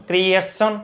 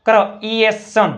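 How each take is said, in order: First: Said in the usual way. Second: ક્રિએશન slowly, broken into kri-es-son; teacher blending ક્રિએશન in slow pieces; sounded-out pronunciation. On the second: Shown as a demonstration. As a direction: stretch ક્રિએશન syllable by syllable. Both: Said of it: "ઈનો ઉચ્ચાર યાદ કરો".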